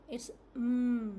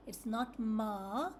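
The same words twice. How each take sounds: First: "mm" hummed through the nose, no vowel; the right way, a pure "mm" hum; correct m sound. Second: "ma" said as a full syllable with a vowel; wrong m sound. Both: Shown as a demonstration.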